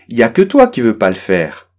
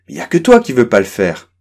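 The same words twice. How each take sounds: Both takes have the same delivery.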